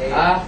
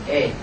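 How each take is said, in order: First: The vowel is a plain open 'a'. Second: The vowel leans toward an 'e' sound. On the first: "Jadi aslinya a" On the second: "dia jadi e"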